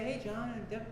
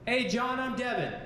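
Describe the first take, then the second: First: The greeting is said quietly and timidly. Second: The greeting is said loudly and confidently. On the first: The listener can barely hear who is there. The speaker calls it wrong. "Don't say" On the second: The speaker is confident in their position. The speaker calls it right. "Speak a little bit louder than you normally do"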